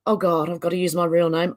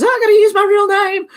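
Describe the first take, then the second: First: Said in the usual way. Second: High, loud panicked wail; hammed-up panic, pitched way up; mock panic. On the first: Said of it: "I was like". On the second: Streamer mimics everyone panicking over real names, mock panic. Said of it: "before everyone panics and goes".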